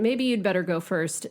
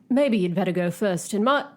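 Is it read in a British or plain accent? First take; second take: plain; British. First: It is read in the speaker's normal accent. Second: It is read in a put-on British accent.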